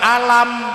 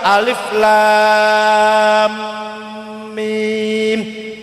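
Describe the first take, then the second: First: It is read as one short word. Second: It is read as three separate letter names. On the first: The speaker calls it wrong. "Coba nek ora ono tajwid, alif lam mim dibaca alam" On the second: The speaker calls it right. "bacanya harus alif lam mim"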